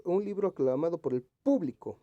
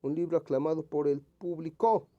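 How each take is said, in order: First: Público stressed as PÚblico; stress on first syllable. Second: Público misread as publiCÓ, last syllable punched; público with the stress moved to its end; misplaced stress. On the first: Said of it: "que esté correctamente escrita". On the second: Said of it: "aquí como que no". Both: Shown as a demonstration.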